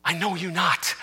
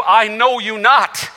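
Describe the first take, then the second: First: Dropped soft, close to the mic; quiet repeat. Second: Slow, measured words from the text; slow scripture reading. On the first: Preacher repeating Christ's words softly to the congregation. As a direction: let it fall softly to the room. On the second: Preacher reading Christ's words to the congregation, slow and measured. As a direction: read it slowly, like scripture aloud. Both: Shown as a demonstration. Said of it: "It's the same words".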